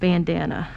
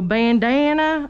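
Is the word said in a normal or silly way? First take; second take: normal; silly. First: The word is said in a plain, ordinary way. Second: The word is said in a silly, exaggerated way. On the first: This is how it is really said. The speaker calls it right. "I don't say bandana like that" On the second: It is said as a joke. The speaker calls it wrong. "I'm just saying it to be silly"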